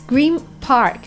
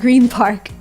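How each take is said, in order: First: The word Green ends with an M sound. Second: The word Green ends with an N sound. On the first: The speaker calls it right. "It's Green Park" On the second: The speaker calls it wrong. "It's not Green Park"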